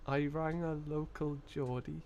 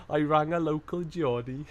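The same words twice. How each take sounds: First: Slow Geordie attempt that lands in Liverpool; botched Geordie, sounding Liverpool. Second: Botched Geordie with a Welsh sing-song; Geordie sliding into Welsh. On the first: Streamer hunting for the accent, Geordie slipping into Liverpool. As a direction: try Geordie slowly but drift into Scouse. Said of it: "That's Liverpool. Hang on". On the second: Acted. Streamer mocking own failed attempt, Geordie turned Welsh. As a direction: aim for Geordie, tip over into Welsh. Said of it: "stop myself going just into Wales".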